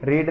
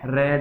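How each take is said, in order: First: The vowel is long, like in 'reed'. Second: The vowel is short, like in 'red'. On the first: It is the present-tense form. The speaker calls it wrong. "रीड नहीं है" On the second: It is the past-tense form. The speaker calls it right. "रेड है। Second form को ए बोलेंगे"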